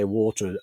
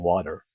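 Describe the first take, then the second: First: It is said in a non-American accent. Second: It is said in an American accent. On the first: Listeners do not understand the word. "I just say water until they literally can't take it anymore" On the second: The word is adapted so listeners understand. "Then I have to say water"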